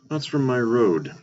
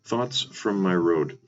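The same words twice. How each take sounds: First: It is said at a normal speed. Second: It is said more slowly.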